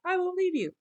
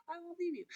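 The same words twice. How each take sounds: First: Higher and louder, an insistent promise; mock disciple vow. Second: Higher and softer, a hushed promise; mock disciple vow. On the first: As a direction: repeat it louder, high, insisting. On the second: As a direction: say it softly, high, like a private vow. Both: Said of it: "To just kinda be like".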